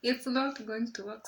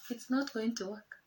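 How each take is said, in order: First: "not" leaned on, a bit louder; stress on not. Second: Said in the usual way. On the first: Shown as a demonstration. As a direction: say "not" harder the second time.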